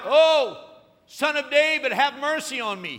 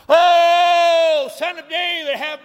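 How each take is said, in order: First: High, loud pleading cry; crying out for mercy. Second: Very high, very loud wail; loudest cry. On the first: Blind beggar cries out to passing Jesus, loud pleading. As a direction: call out to be heard over the crowd. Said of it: "he begins to cry out". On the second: Blind beggar's loudest cry to Jesus, full-throated wail. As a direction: cry out at the top of your lungs. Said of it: "it gets louder and louder". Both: Retold or imitated.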